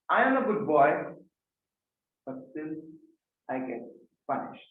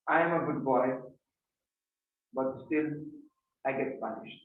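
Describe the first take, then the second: First: It is spoken expressively, with varied pitch. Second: It is spoken flatly, with little pitch variation. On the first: The speaker calls it right. "You could have said it like this" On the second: The speaker calls it wrong. "where you didn't have voice modulation"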